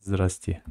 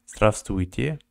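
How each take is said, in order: First: Здрасте, the middle letters dropped; short everyday Здрасте, two syllables; spoken form. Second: Здравствуйте with every letter sounded; full spelling-pronunciation of Здравствуйте; written form. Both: Shown as a demonstration. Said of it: "But they read it like".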